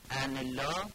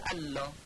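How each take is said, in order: First: The n is pronounced before the l. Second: The n merges into a doubled l. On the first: "ادغام نون بر لامه" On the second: "میشه الله"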